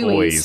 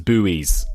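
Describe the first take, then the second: First: It is said with one syllable, like boys. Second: It is said with two syllables, like boo-ees. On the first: This is how the speaker's own people say it. "but we call them" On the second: This is how Americans say it. "Americans, I believe, pronounce them as buoys"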